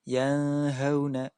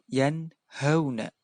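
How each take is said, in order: First: The n sound is blurred into the next sound. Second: The n sound is pronounced clearly and distinctly. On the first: The speaker calls it wrong. "Tidak boleh dibaca" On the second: The speaker calls it right. "harus dibaca jelas"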